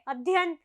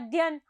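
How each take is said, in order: First: Every syllable is fully pronounced. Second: One syllable is dropped. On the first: The speaker calls it right. "जबकि अध्ययन होता है" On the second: The speaker calls it wrong. "आप बोलते हैं"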